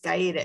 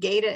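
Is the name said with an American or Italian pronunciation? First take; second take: Italian; American. First: The name is said with an Italian pronunciation. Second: The name is said with an American pronunciation. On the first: This is how the name is said in Italy. "it's Gaeta in Italy" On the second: This is how the family says it in America. "They pronounce it Gaeta in Omaha"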